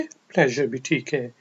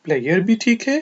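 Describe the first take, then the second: First: "प्लेजर" said with a soft zh sound in the middle; the American "प्लेजर", "pleh-zhur"; American pronunciation. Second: "प्लेयर" said as "player", with a y sound in the middle; the British "प्लेयर", no zh sound; British pronunciation. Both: Shown as a demonstration. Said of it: "कुछ लोग इसको प्लेयर भी पढ़ते हैं".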